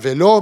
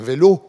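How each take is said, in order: First: The final o is pronounced with an open mouth. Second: The final o is pronounced with a closed mouth. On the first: The speaker calls it wrong. "on ne dit pas un vélo" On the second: The speaker calls it right. "mais un vélo"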